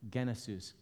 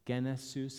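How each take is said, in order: First: The stress falls on the first syllable. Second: The stress falls on the second syllable. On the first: "if I change the emphasis a little bit" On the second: "Do you hear that second word?"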